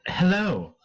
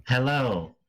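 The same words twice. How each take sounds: First: A hint of a high cat voice; kitten voice. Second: Lightly voiced woman; Titania's voice. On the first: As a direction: mimic the cat's greeting. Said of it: "in the cat's voice". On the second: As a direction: mimic her hello barely changed. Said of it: "in her voice".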